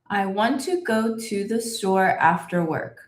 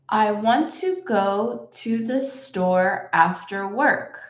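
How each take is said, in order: First: It is said at the fastest pace. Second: It is said at a somewhat faster pace. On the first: "And a little bit faster" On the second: "Let's say it a little bit faster"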